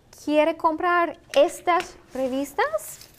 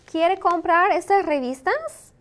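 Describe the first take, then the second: First: Slow question with rising end; slow model question. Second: Said in the usual way. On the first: Shown as a demonstration. Teacher asking learners about buying magazines, slow and deliberate. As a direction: space the words out for learners, higher-pitched.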